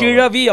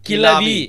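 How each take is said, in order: First: The middle consonant is a retroflex zh sound. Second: The middle consonant is a plain l sound. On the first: This is how a Tamil speaker says it. The speaker calls it right. "கிழவி அப்படிங்கறத" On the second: This is how a Bengali speaker says it. The speaker calls it wrong. "என்ன சொல்லுவான்? ... லா போடுவான்"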